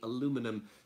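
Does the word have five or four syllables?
four. The word is said with four syllables. "in the U S it would be aluminum"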